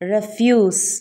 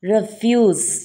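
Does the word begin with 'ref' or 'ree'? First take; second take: ref; ref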